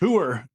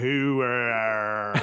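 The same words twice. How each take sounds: First: The word is said with two syllables. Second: The word is stretched out to three syllables. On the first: The speaker calls it right. "got some authenticity" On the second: The speaker calls it wrong. "You could you could stretch it"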